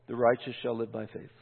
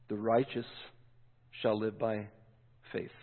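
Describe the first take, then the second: First: Said in the usual way. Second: The righteous... shall live by... faith, softer with long breaks; solemn pauses. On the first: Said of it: "Paul's quote read out". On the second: Shown as a demonstration. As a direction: let each word sink in, quietly. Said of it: "preacher repeats verse for weight".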